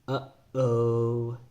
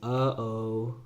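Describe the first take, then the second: First: A throat stop breaks the air between sounds. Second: The sounds run together without a throat stop. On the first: "There's a stop that you can hear" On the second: "instead of saying"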